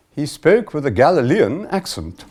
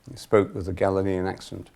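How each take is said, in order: First: High, loud, swooping upper-class English voice; exaggerated upper-class English reader, pitched up; upper-class English accent. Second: Said in the usual way. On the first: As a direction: imitate a very posh English woman reading scripture. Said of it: "upper-class English accent".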